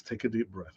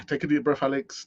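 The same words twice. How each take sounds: First: Calming himself down. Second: Said in the usual way. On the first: Real, not acted. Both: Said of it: "I don't wanna be ranting and raving".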